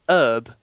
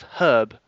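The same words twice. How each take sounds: First: The word starts without an h sound. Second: The word starts with an h sound. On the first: This is the American way of saying it. The speaker calls it wrong. "You say herb instead of herb. ... you don't pronounce the h" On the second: This is the British way of saying it. The speaker calls it right. "instead of herb"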